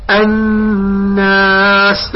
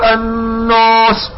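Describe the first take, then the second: First: "الناس" with long humming n and thin "naas"; light alef after noon. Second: "الناس" with dark rounded "noos"; slow "الناس", vowel thickened toward "nos"; wrongly heavy alef. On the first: Teacher models the correct word, long thin-vowelled "الناس". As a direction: draw out "الناس" slowly, alef light and fronted. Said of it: "لماذا لا تفخم الألف؟". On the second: Teacher warns against this error, heavy "nos" in "الناس". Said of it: "لا، لا تفخم الألف". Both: Shown as a demonstration.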